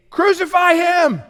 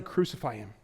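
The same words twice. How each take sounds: First: High, slow shout; crowd shouting. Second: Quiet, hushed yell. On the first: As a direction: shout it as the mob. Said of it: "They say". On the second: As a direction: lower and softer, from Jesus' point of view. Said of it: "they are yelling". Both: Retold or imitated.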